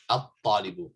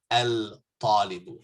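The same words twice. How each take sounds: First: At-talibu with a doubled t, no l; right at-talibu. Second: Al-talibu with the l sounded; wrong al-talibu. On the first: Teacher gives students the correct at-talibu. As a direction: say at-talibu, lam silent. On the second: Teacher shows students the wrong al-talibu. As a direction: say al-talibu with a clear lam. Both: Shown as a demonstration. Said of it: "not al-talibu".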